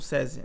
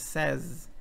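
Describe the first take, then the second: First: The word ends with an added vowel sound. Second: The word ends on the final consonant. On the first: The speaker calls it wrong. "Também não é SESI" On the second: The speaker calls it right. "é says"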